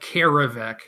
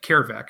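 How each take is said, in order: First: The name has an extra middle syllable. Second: The name is short with no middle syllable. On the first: "when I add the extra syllable?" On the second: "it's snappy. Doesn't have that extra enunciation in the middle"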